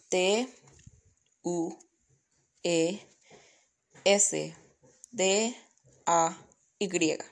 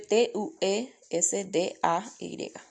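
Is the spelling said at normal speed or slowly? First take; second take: slowly; normal. First: The letters are spelled slowly. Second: The letters are spelled at normal speed.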